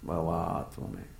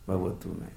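First: The vowel after 'bhav' is long. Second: The vowel after 'bhav' is short. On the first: The speaker calls it wrong. "भवा नहीं भवातु में, वो गलत है pronunciation" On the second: The speaker calls it right. "भवतु कहना चाहिए"

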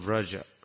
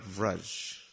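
First: The word ends with a final vowel sound. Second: The word ends on a consonant, no final vowel. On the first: The speaker calls it right. "Mama Ekam Sharanam Vraja" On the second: The speaker calls it wrong. "Not Vraj"

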